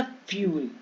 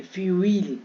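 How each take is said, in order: First: फ्यूल as a single "fyool"; one-syllable fuel. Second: फ्यूल split as "fyu-eel"; u-ee reading. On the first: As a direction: say फ्यूल with one smooth "yoo". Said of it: "यू ई का फ्यूल". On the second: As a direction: say फ्यूल with both vowels, "fyu" then "eel". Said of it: "यू ई ही पढ़ेंगे". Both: Shown as a demonstration.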